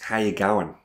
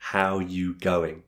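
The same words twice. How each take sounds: First: It is said in an Australian accent, quickly. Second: It is said in a neutral accent, carefully.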